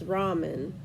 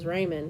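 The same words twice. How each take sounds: First: The word is said with a Japanese pronunciation. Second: The word is said with an American pronunciation. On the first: "That's how you pronounce it in Japanese" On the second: "he thinks it's funny how we pronounce the words. Like uh, I grew up, it was ramen"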